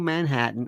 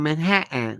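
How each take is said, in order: First: It is said in a plain, everyday accent. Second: It is said in an imitated local accent.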